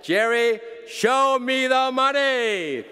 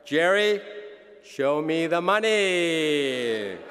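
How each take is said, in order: First: Much higher, loud, slow shout; shouted movie line. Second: Loud, slow movie-line delivery; Jerry Maguire quote. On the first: Acted. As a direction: belt it out like the movie. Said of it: "So I say to you". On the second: Retold or imitated. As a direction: belt out the famous line. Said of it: "As Rod said at Jerry Maguire".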